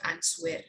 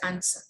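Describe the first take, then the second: First: A W sound is pronounced in the word. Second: No W sound is pronounced in the word. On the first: The speaker calls it wrong. "It's not answer" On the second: The speaker calls it right. "it's an answer"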